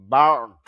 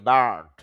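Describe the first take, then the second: First: বার্ড as "baat", r dropped, firm; correct pronunciation. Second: বার্ড with the r sounded, slow; wrong pronunciation. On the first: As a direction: say বার্ড without the r. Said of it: "তাহলে উচ্চারণ হবে বার্ড". (শুদ্ধ উচ্চারণ: বার্ড, র ছাড়া) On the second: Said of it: "এরকম হবে না". (ভুল উচ্চারণ: বার্ড, র উচ্চারণ করে) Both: Shown as a demonstration.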